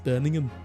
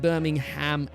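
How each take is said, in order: First: The h sound in the middle is silent. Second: The h sound in the middle is pronounced. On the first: It is the British city's name. The speaker calls it right. "You don't say the H" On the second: It is the American city's name. The speaker calls it wrong. "It's not like Birmingham, Alabama"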